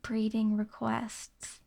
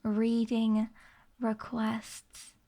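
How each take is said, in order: First: "breeding" begun with a B before the R; clear B in breeding. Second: "Reading" begun on a plain R, no B; clear R in reading. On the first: Streamer quotes chat's mishearing, slow deliberate "breeding". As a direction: slowly enunciate "breeding" as the wrong word. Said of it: "I did not say". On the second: Streamer clarifies the word for chat, deliberate "Reading". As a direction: carefully separate "Reading" from "requests". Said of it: "I did not say breeding requests". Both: Shown as a demonstration.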